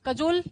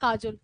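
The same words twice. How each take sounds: First: कजोल said with a short first vowel, the proper English way; correct pronunciation. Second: काजोल with a long 'aa', like the actress's name; memory-trick pronunciation. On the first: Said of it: "इसका pronunciation कजोल है". (कजोल को सही उच्चारण में, पहला स्वर छोटा) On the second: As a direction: stretch it to काजोल, lower and softer. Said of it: "लेकिन हम क्या ध्यान रखेंगे? काजोल". (याद रखने के लिए काजोल, लंबा 'आ') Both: Shown as a demonstration.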